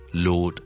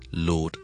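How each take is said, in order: The two takes are said the same way.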